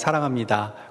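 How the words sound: It is said warmly, with a smile.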